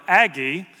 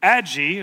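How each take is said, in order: First: Aggie said as "AG-ee"; hard g in Aggie, as in bag; hard-g pronunciation. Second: Aggie said as "ADJ-ee"; soft-g mispronunciation. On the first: Dad giving her other name, Aggie with hard g. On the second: Dad quoting what Abigail calls herself, Aggie with soft g. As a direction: say Aggie with a j sound. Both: Retold or imitated. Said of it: "Abigail started calling herself".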